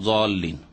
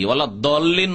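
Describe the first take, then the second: First: The key consonant sounds like a plain z. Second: The key consonant sounds like a d. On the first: "জল্লিনও নয়" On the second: "দলিন নয়"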